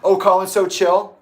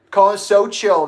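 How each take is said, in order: First: Loud, high sarcastic question; mocking echo. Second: Scathing retort. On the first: Answering the defender of Colin, mocking and loud. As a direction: throw the words back scornfully. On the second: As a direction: stretch it out with scorn. Retort after the mocking echo. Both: Real, not acted.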